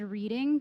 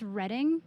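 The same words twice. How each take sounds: First: The first vowel sounds like 'reed'. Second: The first vowel sounds like 'red'. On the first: This is how the spelling suggests it is said. The speaker calls it wrong. "looks like it would be said reading" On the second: This is how the place name is actually said. The speaker calls it right. "it's Reading for some reason"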